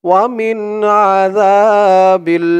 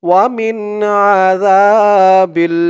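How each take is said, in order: The two takes are said the same way.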